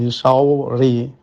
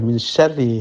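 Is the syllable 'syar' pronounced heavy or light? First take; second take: heavy; light. First: The syllable 'syar' is pronounced heavy and thick. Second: The syllable 'syar' is pronounced light and thin. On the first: The speaker calls it wrong. "bukan min syarri, syar tebal, ri tipis" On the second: The speaker calls it right. "bacaan yang benar adalah min syarri, langsung tipis"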